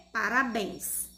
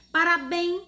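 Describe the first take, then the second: First: Said in the usual way. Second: Parabéns said high and loud with a rising tune; quiz-style rising Parabéns; questioning prompt. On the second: Shown as a demonstration. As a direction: float Parabéns up as a question to the class. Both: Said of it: "vai ficar o quê?".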